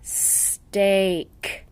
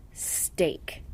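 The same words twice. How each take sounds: First: Steak sounded out slowly, sound by sound; sounding out words. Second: Said in the usual way. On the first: Shown as a demonstration. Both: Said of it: "The word steak should be read like this".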